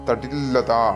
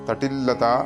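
No difference in how they are said.

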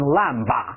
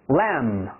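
First: The final b is pronounced. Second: The final b is silent. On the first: The speaker calls it wrong. "千万不要读成lamb" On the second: The speaker calls it right. "记住是B 不发音"

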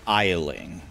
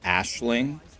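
First: The name begins with an 'eye' sound. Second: The name begins with an 'ash' sound. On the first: This is how the name would be read in English. "the way that I would pronounce that name in English is Isling with no S" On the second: This is how the game's makers say it. "I heard the devs pronounce it Ashling"

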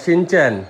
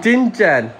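First: The name begins with an 'sh' sound. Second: The name begins with a 'ch' sound. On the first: The speaker calls it right. "सीमा दीदी शिनचैन है" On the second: The speaker calls it wrong. "सीमा दीदी ने पता कौन सा cartoon बोला था इसको"

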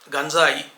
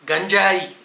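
First: The 'j' is pronounced as a dental sound. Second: The 'j' is pronounced as a palatal sound. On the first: The speaker calls it right. "దంత్యం పలకాలి" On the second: The speaker calls it wrong. "గంజాయి కాదు"

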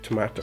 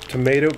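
First: It is said with a non-American pronunciation. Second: It is said with an American pronunciation. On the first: "but all the way people say tomato" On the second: "Americans say tomato"

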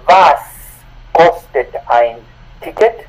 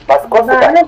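First: It is said slowly and carefully. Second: It is said more quickly and fluently.

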